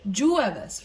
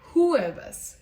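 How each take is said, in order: First: The word begins with an English J sound. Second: The word begins with a breathy H sound. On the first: The speaker calls it wrong. "that's how you would pronounce it" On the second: The speaker calls it right. "in Spanish, you actually pronounce it as"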